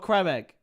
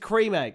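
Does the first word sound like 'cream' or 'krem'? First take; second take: krem; cream. First: The first word has a short 'eh' vowel. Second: The first word has a long 'ee' vowel. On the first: The speaker calls it wrong. "It's not a creme egg" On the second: The speaker calls it right. "It's a cream egg"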